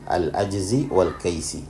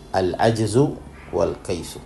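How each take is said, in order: First: Both words end with an 'i' vowel. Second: Both words end with a 'u' vowel. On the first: The phrase is joined to the word 'syai'in'. "bisa pula dibaca kasrah al-ajzi wal kaisi" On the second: The phrase is joined to the word 'kullu'. "Bisa dibaca dhammah al-ajzu wal kaisu"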